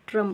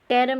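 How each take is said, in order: First: The vowel sounds like 'uh'. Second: The vowel sounds like 'eh'. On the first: The speaker calls it right. "ट्रम पढ़ेंगे" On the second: The speaker calls it wrong. "टेरम नहीं पढ़ेंगे"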